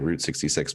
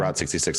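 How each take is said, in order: First: The word 'route' rhymes with 'boot'. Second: The word 'route' rhymes with 'out'. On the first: This is how most people say it. The speaker calls it wrong. "most people do say Route sixty-six, but I don't like that" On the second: This is the speaker's own preferred way. The speaker calls it right. "I would say"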